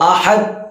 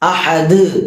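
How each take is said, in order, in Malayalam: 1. അവസാന d പരന്ന്, തട്ടലില്ലാതെയാണ് ഉച്ചരിക്കുന്നത്. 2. അവസാന d വ്യക്തമായ തട്ടലോടെയാണ് പുറത്തുവിടുന്നത്. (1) "എന്നാണോ നമ്മൾ ഓതാറുള്ളത്? അല്ല" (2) "ദ് എന്ന് വെളിവാക്കി"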